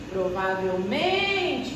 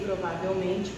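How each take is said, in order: First: The stress falls on the syllable 'men'. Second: The stress falls on the syllable 'va'. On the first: The speaker calls it right. "Provavelmente é o nem" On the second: The speaker calls it wrong. "não pode ser provavelmente, porque o vá é uma subtônica"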